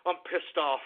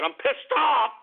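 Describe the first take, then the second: First: Low, subdued anger; pissed off. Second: Angry outburst jumping in pitch on the last word; pissed off. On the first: Host repeats it to listeners, quietly pissed off. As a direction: say it again under control, lower and softer. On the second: Host fuming to listeners over the news, pissed off. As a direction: burst out, insisting you mean it. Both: Real, not acted.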